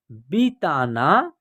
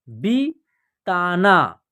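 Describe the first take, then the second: First: Said in the usual way. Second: बिताना drawn out, syllables apart, falling; slow syllable by syllable. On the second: Shown as a demonstration. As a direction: read बिताना slowly in parts. (बिताना धीरे-धीरे टुकड़ों में) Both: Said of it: "या आप direct भी पढ़ सकते हैं".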